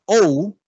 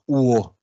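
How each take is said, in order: First: O as English 'ow' in 'slow'; drawn-out English O; English diphthong. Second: UO gliding from 'u' into 'o'; Creole diphthong. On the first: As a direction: say O gliding from 'o' to 'u'. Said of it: "todo lo que sea o en inglés". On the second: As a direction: say UO as 'woh'. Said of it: "va a ser en criollo". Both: Shown as a demonstration.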